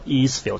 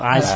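First: The first vowel sounds like 'ee'. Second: The first vowel sounds like 'eye'. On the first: The speaker calls it wrong. "用英文發音嗰時唔好讀Eastfield" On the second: The speaker calls it right. "讀Icefield 就好啲"

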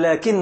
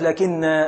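First: The word ends with a short final vowel. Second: The word ends with a long final vowel. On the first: The word runs on into the next word. "في الوصل تقول" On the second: The speaker stops after the word. "إذا وقفت تقف بالألف"

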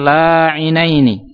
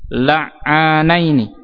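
First: The vowel after the ain sound is i. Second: The vowel after the ain sound is a. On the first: The speaker calls it wrong. "bukan la'inaini" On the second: The speaker calls it right. "yang benar adalah la'ani. Alifnya itu setelah huruf ain"

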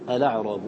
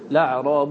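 First: It starts with a glottal stop and vowel. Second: It starts directly with an L sound. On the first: The lam is treated as originally vowelless. "فإنك تأتي بهمزة الوصل" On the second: The temporary vowel on the lam is taken into account. "إذا اعتدت بحركة اللام العارضة ... لم تحتاج إلى الهمزة"

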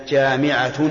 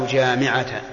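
Both takes have the same delivery.

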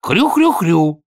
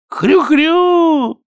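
First: The grunting sounds reluctant and mocking. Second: The grunting is shouted with exaggerated delight. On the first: The grunter is being forced to do it. "Ты хрюкаешь так, как будто тебя заставляют" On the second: The grunter pretends to enjoy it. "закричал Чонкин, изображая на лице своем чрезвычайный восторг"

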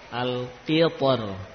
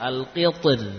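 First: The final r is pronounced heavy and full. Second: The final r is pronounced light and thin.

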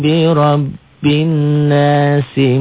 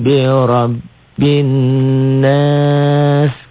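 First: It runs on as nasi without lengthening the vowel. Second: It stops on nas with the vowel held long. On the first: The reciter continues into the next verse. "Kalau enggak dihentikan, ada? Enggak ada" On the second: The reciter pauses at the end of the verse. "Jika berhenti, jika dihentikan, maka jadilah mad arid li sukun"

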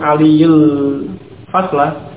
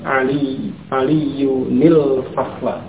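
First: The words join directly with no 'n' sound. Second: An 'ni' sound links the two words. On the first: The speaker calls it wrong. "Bukan langsung aliyul fasla, itu akan menghilangkan tanwin" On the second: The speaker calls it right. "ditambahkan nun yang di kasrah antara keduanya"

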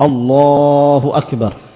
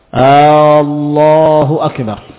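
First: The opening vowel of Allah is short. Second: The opening vowel of Allah is drawn out. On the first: It is a plain statement. The speaker calls it right. "tidak dipanjangkan" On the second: It sounds as if asking a question. The speaker calls it wrong. "dengan alif yang dipanjangkan"

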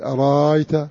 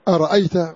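First: The second hamza becomes a long vowel. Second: The second hamza is fully pronounced. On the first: "وورش بالإبدال" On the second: "الهمزة محققة"

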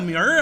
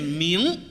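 First: The word ends with an r-colored sound. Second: The word ends without an r-colored sound. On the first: The speaker calls it wrong. "什么叫明儿啊" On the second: The speaker calls it right. "规范的读音念明"

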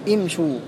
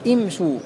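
First: The opening vowel is an unrounded i. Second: The same.

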